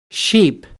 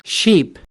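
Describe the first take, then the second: No difference in how they are said.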